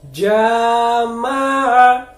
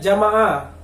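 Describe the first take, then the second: First: The first vowel is held for two beats. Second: The first vowel is held too briefly. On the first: The speaker calls it right. "Maka bacanya panjang dua harokat" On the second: The speaker calls it wrong. "kurang panjang"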